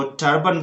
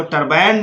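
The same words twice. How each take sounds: First: टर्बन with a short uh at the end; correct pronunciation. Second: टरबाइन with a long ai at the end; wrong pronunciation. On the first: Teacher shows the right way, tur-bun. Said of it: "इसको टर्बन बोलना है". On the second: Teacher mimics the wrong way, tur-bine. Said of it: "नहीं बोलना है". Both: Shown as a demonstration.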